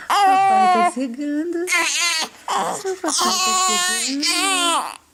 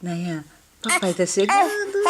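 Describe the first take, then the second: First: Sing-song. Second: Said in the usual way. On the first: Real, not acted. Repeated higher cooing.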